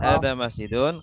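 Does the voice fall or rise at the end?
rises. The voice rises at the end like a question. It sounds like asking what the thing is. The speaker calls it wrong.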